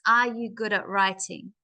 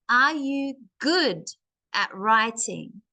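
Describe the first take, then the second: First: It is said in a flat, even voice. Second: It is lively, pushing on good and writing. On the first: The speaker calls it wrong. "we don't want to speak in the same voice" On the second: The speaker calls it right. "the word good and the word writing, I pushed my voice"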